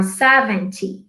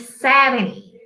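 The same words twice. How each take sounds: First: Seventy said slowly with a full t, se-ven-tee. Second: Seventy pushed through the nose, seveni, t dropped; nasal seventy. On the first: Teacher to students, giving the full seventy with t. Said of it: "Or seventy". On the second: Teacher to students, showing the nasal seventy. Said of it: "Bem pelo nariz". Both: Shown as a demonstration.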